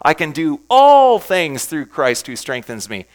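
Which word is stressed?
all. The word "all" is stressed.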